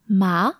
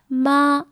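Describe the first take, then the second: First: The pitch rises from middle to high. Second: The pitch stays level and high throughout. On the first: "with a rising intonation" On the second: "with a flat intonation, a flat tone"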